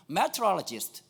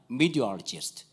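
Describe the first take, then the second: First: Meteorologist spelled out syllable by syllable, Korean style; textbook pronunciation. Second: Meteorologist lower and slurred, like "midialist"; American pronunciation. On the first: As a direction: say Meteorologist as it is written, every syllable. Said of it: "미국 애들 못 알아들어요". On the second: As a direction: swallow the middle of Meteorologist, American style. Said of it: "이렇게 알아듣는단 말이에요". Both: Shown as a demonstration.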